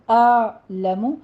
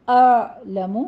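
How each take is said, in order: First: اعلم with a smooth ain from mid-throat, no echo; slow, steady اعلم; correct pronunciation. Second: اعلم with a bouncing echo on the ain; اعلم said louder with the wrong qalqala; exaggerated wrong اعلم; wrong pronunciation. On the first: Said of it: "وسط حلق سے ادا کرنا ہے". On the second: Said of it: "آ بھی نہیں کہنا". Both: Shown as a demonstration.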